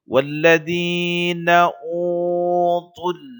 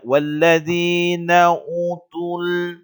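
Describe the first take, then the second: First: The first vowel of utul is held long. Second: The first vowel of utul is kept short. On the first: The speaker calls it right. "Jadi dua harakat ya" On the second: The speaker calls it wrong. "Jangan dibaca walladzina utul. Itu salah"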